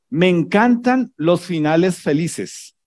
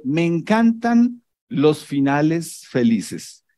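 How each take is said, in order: First: Drawn-out mock delight on "encantan"; sarcastic. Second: Slow sarcasm. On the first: Video caption read sarcastically to the congregation. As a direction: say it dripping with irony. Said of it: "con sarcasmo". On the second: Retold or imitated. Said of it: "Porque le está pasando algo".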